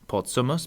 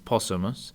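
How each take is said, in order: First: A T sound is heard before the S. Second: No T sound is heard before the S.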